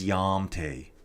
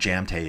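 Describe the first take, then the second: First: The name begins with a Y sound. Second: The name begins with a J sound. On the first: The speaker calls it right. "I bet you it's Yamte" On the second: The speaker calls it wrong. "You don't say jam. It's definitely not Jamte"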